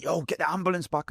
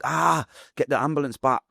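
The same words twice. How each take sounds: First: Retold high, held-back cry; unshouted plea. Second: Higher-pitched cry for help, retold; groaned "ah", then a raised plea; mock shout. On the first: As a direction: plead for help without the strength to shout. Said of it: "I'm not shouting that out". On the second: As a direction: call out for the ambulance in pain. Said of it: "Obviously, I'm not shouting that out".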